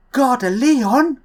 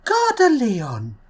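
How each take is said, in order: First: Slow, high, rising Gare de Lyon; French announcement, rising tone. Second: Slow Gare de Lyon that slides down; French announcement, falling tone. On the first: A vlogger imitating the French two-tone station chime, rising. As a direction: draw out Lyon and lift it up at the end. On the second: A vlogger imitating the French two-tone station chime, falling. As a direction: start Gare high, then let the pitch fall away. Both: Pretend. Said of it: "two different voice tones".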